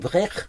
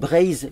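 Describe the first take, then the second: First: The word ends with a ch-like sound. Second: The word ends with a z sound. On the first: This is the southern dialect form. "dans un dialecte du sud, on dit Brech" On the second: This is the northern dialect form. "dans les dialectes du nord, on dit Braise avec le Z"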